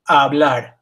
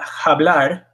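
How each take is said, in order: First: The word starts directly with the vowel sound. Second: The word starts with an audible h sound. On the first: The speaker calls it right. "it's hablar" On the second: The speaker calls it wrong. "So this is not hablar"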